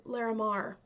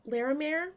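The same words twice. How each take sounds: First: Larimar. with a falling tune, ending "mar"; confident statement. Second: Larimar? rising like a question, second syllable as "mer"; unsure question. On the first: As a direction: say Larimar. firmly as the answer. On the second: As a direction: ask Larimar? with a rising tune. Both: Shown as a demonstration.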